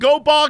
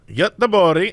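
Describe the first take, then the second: First: The name is said like English goat bog. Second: The name is said with Swedish pronunciation. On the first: The speaker calls it wrong. "It's not goat bog at all" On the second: The speaker calls it right. "It is pronounced in Swedish, ... That's how it's pronounced"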